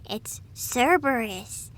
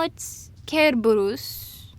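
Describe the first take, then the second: First: Cerberus begins with a soft S sound. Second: Cerberus begins with a hard K sound. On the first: The speaker calls it wrong. "if I hear you saying" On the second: The speaker calls it right. "N- no"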